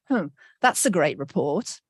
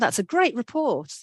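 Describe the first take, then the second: First: It sounds doubtful and sarcastic. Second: It sounds sincere and positive.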